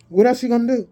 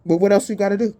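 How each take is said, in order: First: Higher, pushed rhetorical challenge with ELSE hit hard; a pointed second ask, much higher; pressing rhetorical question. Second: Said in the usual way. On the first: Real, not acted. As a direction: really lean on the word else to challenge them. Repeats question, then presses harder.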